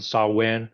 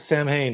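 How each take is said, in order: First: It is said with no m and no h. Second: It is said with a clear m and h. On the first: This is the Gaelic pronunciation. "people pronounce pronounce it Saw Wen" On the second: This is the anglicized reading of the spelling. "it's funny you pronounce it Sam Hain"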